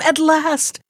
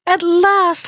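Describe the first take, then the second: First: Higher, eager first "At last"; calling out. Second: Even higher, fuller second "at last" with a falling end; calling out, rising. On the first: Princess calls down to the rider, eager and high. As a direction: call "At last" down from the balcony, lifted and glad. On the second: Princess calls to her returning husband, overjoyed. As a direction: let "at last" swell over the first one, then fall. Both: Acted. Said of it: "she called to him".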